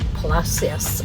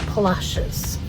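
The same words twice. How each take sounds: First: The name is said the way outsiders say it. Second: The name is said the way locals say it.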